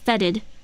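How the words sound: It is said with an American pronunciation. "in the U S pronunciation it says fetid"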